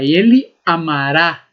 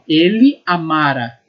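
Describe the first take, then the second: First: The stress falls on the last syllable. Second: The stress falls on the middle syllable. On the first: The action will happen in the future. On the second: The action happened in the past.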